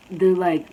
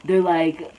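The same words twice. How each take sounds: The two takes are said the same way.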